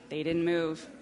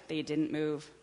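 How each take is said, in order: Both takes have the same delivery.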